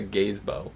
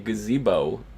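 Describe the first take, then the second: First: It sounds like two words, gaze and bow. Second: It sounds like the usual single word. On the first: The speaker calls it wrong. "who the hell have you ever heard called something a gaze bow" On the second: The speaker calls it right. "everybody around you pronounce it as a gazebo"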